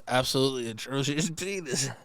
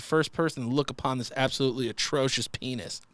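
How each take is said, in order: First: Steady reading that cracks at the end; breaking into laughter. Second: Said in the usual way. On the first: Real, not acted. Host retrying the email line, breaking into laughter. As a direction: hold it together until the last words, then laugh. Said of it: "I'm laughing at the words".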